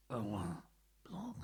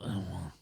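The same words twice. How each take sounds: First: Said in the usual way. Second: "Erwin" said the French way, like air-WAN; French pronunciation. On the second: Shown as a demonstration. Trying the French way of saying the manager's name. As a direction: give "Erwin" a French nasal ending. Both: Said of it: "That's the French pronunciation".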